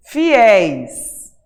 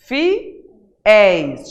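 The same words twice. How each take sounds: First: FIÉIS loud and drawn out on open éis; open diphthong. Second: FIÉIS broken loudly into FI, pause, ÉIS; split into syllables. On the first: Teacher pointing out the diphthong to students, open drawn-out FIÉIS. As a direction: say FIÉIS with a long, open ending. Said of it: "de tongo aberto". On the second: Teacher showing the last syllable to students, FIÉIS split in two. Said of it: "Tá na última sílaba". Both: Shown as a demonstration.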